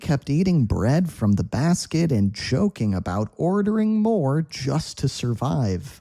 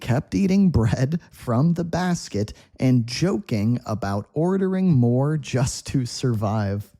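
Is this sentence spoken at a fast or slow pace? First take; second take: fast; slow. First: It is spoken at a natural, fast pace. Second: It is spoken slowly and carefully.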